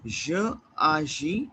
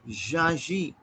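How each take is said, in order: First: The vowel of 'je' is kept before 'agis'. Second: The vowel of 'je' is dropped and joined. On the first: "I will say je agis" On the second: "two vowels together. So I can say jaji"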